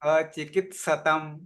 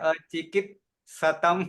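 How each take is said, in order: First: The t sound comes before the s. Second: The s sound comes before the t. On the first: The speaker calls it right. "ત પેલો આવે પછી સ આખો આવે" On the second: The speaker calls it wrong. "એની જગ્યાએ સ આગળ અડધો જતો રહે ત પાછળ આખો જતો રહે"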